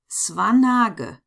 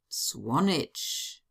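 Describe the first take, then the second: First: The name is read with German letter sounds. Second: The name is read with English letter sounds. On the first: "pronounce them in German" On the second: "in English"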